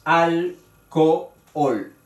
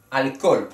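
First: "Alcohol" slowly split, al-co-ol; sílaba por sílaba. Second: Said in the usual way. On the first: Shown as a demonstration. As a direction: break "Alcohol" into three beats, sounding both o's. ("Alcohol" despacio, en tres sílabas: al-co-ol) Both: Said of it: "que tiene tres sílabas".

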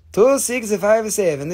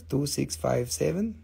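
First: Two six five seven called slow and louder; auctioneer's slow call; claim call. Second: Said in the usual way. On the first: Shown as a demonstration. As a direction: announce the lot number slowly.

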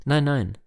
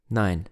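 First: Higher and louder, "nein" hit hard twice; a playful but firm double "Nein, nein"; bursting out with a teasing "Nein, nein"; emphatic refusal. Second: Said in the usual way. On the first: Acted.

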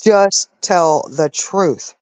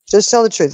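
First: "just tell the truth" very slowly, word by word; emphatic. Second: Said in the usual way. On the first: Real, not acted. Fed-up streamer pleading against lies, "just tell the truth" slow and emphatic.

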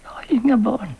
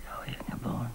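First: Higher and louder, pushing the words out; anguished repeat. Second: Barely voiced, near a whisper; hushed confession. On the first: Acted. Mother confessing to Selma, voice rising in anguish. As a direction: cry out the denial. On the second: Mother confessing to Selma, whispered. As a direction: breathe the line out in despair.

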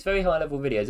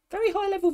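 First: Said in the usual way. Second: Much higher, mock-lofty take on "Very high level videos"; mock grand voice. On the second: Bragging about his videos, mock-lofty high voice.

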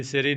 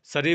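First: ਸਿਰੀ said as "siri"; i in first syllable. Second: ਸਰੀ said as "sari"; a quick neutral vowel after the s of ਸਰੀ; short a in first syllable. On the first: Teacher showing learners the mistake, "siri" for ਸਿਰੀ. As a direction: give ਸਿਰੀ a short i after the s. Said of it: "ਸਿਰੀ ਨਹੀਂ ਬੋਲਣਾ". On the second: Teacher giving learners the correct form, "sari" for ਸਰੀ. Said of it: "ਸਰੀ ਬੋਲਣਾ". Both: Shown as a demonstration.

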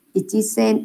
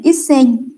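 First: Ichisen with the full chi, the wrong way; wrong reading. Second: Isen said short, two syllables, no chi; correct reading. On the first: Teacher showing the student's wrong reading, Ichisen softly. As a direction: say Ichisen as the mistaken form, softer. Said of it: "không phải học là Ichisen". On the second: Teacher correcting a student's number reading, firm Isen. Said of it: "đọc là Isen". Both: Shown as a demonstration.

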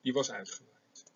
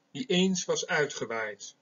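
First: Said in the usual way. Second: Slow, lingering close of the poetic line; slow verse reading with weight on eens; poem recitation. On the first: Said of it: "Hè, zij steekt de vlam aan". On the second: Shown as a demonstration. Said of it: "Eén zo'n gedicht wil ik hier voorlezen".

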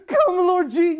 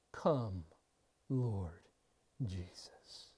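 First: Come, Lord Je- shouted high and loud with eagerness; eager cry. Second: Hushed prayerful plea. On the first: Acted. Believer welcoming Christ's coming with a loud, eager shout. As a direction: call him in with joyful impatience. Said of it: "And your response to his coming is". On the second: Retold or imitated.

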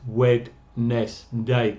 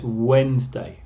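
First: Wednesday read as written, WED-NES-day, slowly; spelled-out pronunciation. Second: Wednesday as WENZ-day, d silent; correct pronunciation. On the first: Teacher showing the wrong, letter-by-letter Wednesday. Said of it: "no es Wednesday, como se escribe". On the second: Teacher giving the class the real sound of Wednesday. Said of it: "La pronunciación aquí es Wednesday". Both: Shown as a demonstration.

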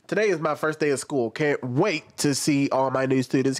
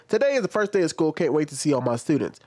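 First: Said in the usual way. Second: Quick sarcastic reread of the teacher's tweet; mocking reread. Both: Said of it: "Keep that in mind, that last part right there".

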